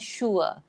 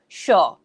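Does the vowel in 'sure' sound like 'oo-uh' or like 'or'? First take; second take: oo-uh; or. First: The vowel is an 'oo-uh' glide. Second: The vowel is a long 'or' sound. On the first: This is the older form that is being replaced. "bukan sure" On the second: This is how many people in the UK say it now. "many of them will say sure"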